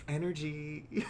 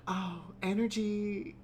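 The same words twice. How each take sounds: First: Slow, breathy mock of spiritual types; teasing airy energy talk. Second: Slow, airy mock wonder; dreamy mock awe at energy. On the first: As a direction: drawl it like a dreamy hippie. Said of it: "Sometimes I will hear people talking about, like". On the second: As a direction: gush it like a wide-eyed hippie. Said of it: "Sometimes I will hear people talking about".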